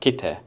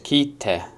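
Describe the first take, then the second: First: No pause comes before the t. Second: A short pause comes before the t. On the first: It means come. "not kite" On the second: It means cut. "you can hear the pause"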